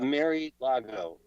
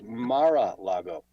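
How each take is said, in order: First: The name begins with a sound like 'Mary'. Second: The name begins with a sound like 'Mar-a'. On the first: The speaker calls it wrong. "it's not Mary-Lago" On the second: The speaker calls it right. "It's Mar-a-Lago"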